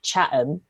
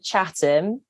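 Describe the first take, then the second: First: The t is dropped. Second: The t is clearly pronounced.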